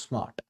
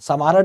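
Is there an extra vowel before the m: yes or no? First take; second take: no; yes. First: The s and m join without a vowel. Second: An extra vowel splits the s and m. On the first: The speaker calls it right. "एक बार में बोलोगे स्मार्ट" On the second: The speaker calls it wrong. "समार्ट नहीं है"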